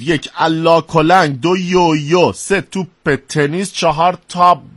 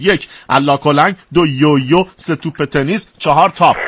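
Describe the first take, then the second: First: The list is read at a slow pace. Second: The list is read at a fast pace. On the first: "آروم میخونم" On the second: "خیلی تون میخونید"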